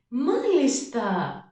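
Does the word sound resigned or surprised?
surprised. It is said in a surprised, excited tone. I did not expect this news at all. "Τώρα νιώθω έκπληξη"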